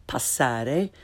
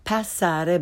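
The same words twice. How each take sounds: First: "passare" with open ah, rising; correct Italian pronunciation. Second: "passare" slowly, pass with English short a; learner's mispronunciation. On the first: Teacher corrects beginners, "passare" with Italian ah. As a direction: say "passare" as pahs-SAH-reh. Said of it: "follow it with the correct pronunciation". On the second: Teacher shows beginners' mistake, "passare" with English short a. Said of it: "first the way most people". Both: Shown as a demonstration.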